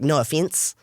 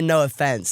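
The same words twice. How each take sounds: First: It is said in a New Zealand accent. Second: It is said in an American accent. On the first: "it's supposed to sound like no offense in like a Kiwi accent" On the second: "Americans say no offense"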